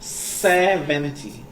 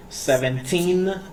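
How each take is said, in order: First: Slow "seventy" with a long, punched SE; stress on SE. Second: Put-on slow, high "seventeen" with a long TEEN; stress on TEEN. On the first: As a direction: hold the first syllable of "seventy". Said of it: "you need to stress out on". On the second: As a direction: draw out the last syllable of "seventeen". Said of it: "the teen sound is, like, stressed out". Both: Shown as a demonstration.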